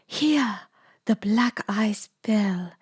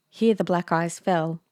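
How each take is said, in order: First: Put-on slow, lilting Italian-accented line; Italian-accented character voice. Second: Said in the usual way. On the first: A narrator's reading. Narrator still in Lisa's voice by mistake, Italian accent.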